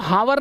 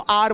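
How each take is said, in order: First: It starts with an h sound. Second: It is said as one syllable without h. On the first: The speaker calls it wrong. "इसको हावर नहीं बोलते" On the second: The speaker calls it right. "इसको आर बोलते हैं"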